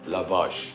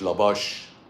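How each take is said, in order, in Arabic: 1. المقطع الثاني يبدأ بصوت v. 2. المقطع الثاني يبدأ بصوت b.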